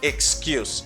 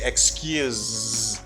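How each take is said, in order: First: The final consonant is a hissing s sound. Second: The final consonant is a buzzing z sound. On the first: It is the noun meaning a reason given. "The ending se gives you a s sound" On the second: It is the verb meaning to forgive. "is pronounced as a Z sound"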